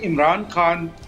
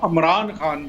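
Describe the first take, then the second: First: The name begins with an i vowel. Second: The name begins with an a vowel. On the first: It is the speaker's own way of saying it. "जिस तरह मैं अभी pronounce कर रहा हूँ" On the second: It is how the voice in the video says it. "वहाँ अमरान खान, मैं अमरान तो नहीं कह सकता"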